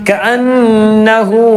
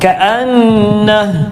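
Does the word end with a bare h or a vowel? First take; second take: vowel; bare h. First: The word ends in a short u vowel. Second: The word ends in a bare h sound. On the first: The reading runs on without a stop. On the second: The reciter stops at this word.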